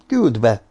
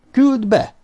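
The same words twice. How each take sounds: First: Said in the usual way. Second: Impatient repeated order. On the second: A narrator's reading. Éppen most mondtam, vagy nem?.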